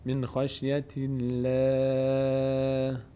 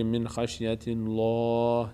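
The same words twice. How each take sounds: First: The L in Allah is light and thin. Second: The L in Allah is heavy and full. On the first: The speaker calls it right. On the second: The speaker calls it wrong.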